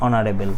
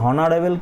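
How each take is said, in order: First: The word begins with a vowel sound. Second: The word begins with an h sound. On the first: The speaker calls it right. "এইচটা এখানে silent থাকছে এখানে ও দিয়ে উচ্চারণ হলে" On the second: The speaker calls it wrong. "উচ্চারণটা কি এইচ এর মতো কি বলছি হনারেবল কি বলছি বলছি না"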